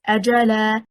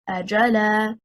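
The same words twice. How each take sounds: First: The stress is on the first syllable. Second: The stress is on the second syllable. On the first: It is a single word meaning a term. The speaker calls it right. "ajala and not ajala" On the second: It becomes a question particle plus a verb. The speaker calls it wrong. "and not ajala"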